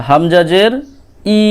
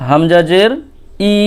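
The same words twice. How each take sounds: Both takes have the same delivery.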